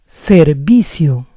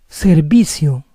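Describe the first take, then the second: Both takes have the same delivery.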